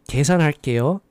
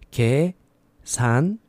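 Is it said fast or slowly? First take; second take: fast; slowly. First: It is said at normal speed. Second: It is said slowly.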